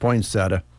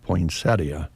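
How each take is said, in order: First: The word is said in the everyday local way. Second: The word is said in the fuller, refined way. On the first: This is how most local people say it. "I think in Nebraska, a lot of us just say" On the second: This is the more proper, refined form. "is the refined way to say it"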